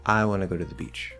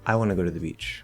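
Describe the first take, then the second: First: The word I is stressed, then pitch falls. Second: The same.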